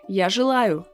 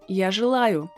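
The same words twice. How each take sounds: No difference in how they are said.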